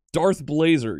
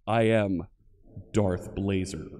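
First: Said in the usual way. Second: Low, dark Sith Lord boom; Darth Vader voice. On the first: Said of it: "like the Sith Lord himself". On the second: Retold or imitated. Streamer booms his handle as a Sith Lord, deep and dark. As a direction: intone it like the masked villain. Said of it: "like the Sith Lord himself, Darth Vader".

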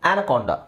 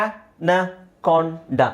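First: Said in the usual way. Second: Anaconda drawn out slowly, each syllable clear. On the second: Shown as a demonstration. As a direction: stretch Anaconda out slowly for the class. (ಅನಕೊಂಡ ಪದವನ್ನು ನಿಧಾನವಾಗಿ ಅಕ್ಷರ ಅಕ್ಷರವಾಗಿ)

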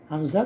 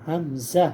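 First: হামজা said quick and clipped with no lengthening; short, no stretch. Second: Said in the usual way. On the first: Shown as a demonstration. Teacher showing the letter has no length, quick. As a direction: say হামজা briskly, no drawing out. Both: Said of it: "কোনো টান হবে না".

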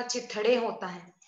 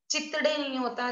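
First: चिथड़े said with an aspirated थ and a falling close; चिथड़े with a clear aspirated th, the right way; correct pronunciation. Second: चितड़े said with a plain t sound, marked as wrong; चितड़े with a soft unaspirated t, the wrong way; wrong pronunciation. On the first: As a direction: stress चिथड़े with a breathy थ sound. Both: Shown as a demonstration.

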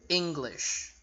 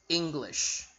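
Both takes have the same delivery.

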